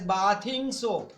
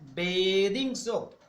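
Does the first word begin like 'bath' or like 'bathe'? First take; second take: bath; bathe. First: The first word starts like the word 'bath'. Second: The first word starts like the word 'bathe'. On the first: The speaker calls it wrong. "many of you pronounce this word as bathing soap. Sorry, it is not bathing" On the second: The speaker calls it right. "the word is B A T H E. Bathe"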